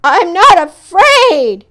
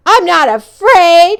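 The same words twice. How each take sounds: First: Slower loud shout with "not" hit hard; loud, slow, stressing "not". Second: Higher and louder, a brave front; loud quavering boast; cried out. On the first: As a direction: shout "not" to convince yourself. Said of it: "he shouted". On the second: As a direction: cry it out to hide the fear. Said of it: "he cried". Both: Acted.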